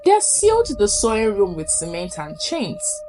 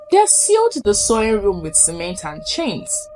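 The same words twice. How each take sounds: The two takes are said the same way.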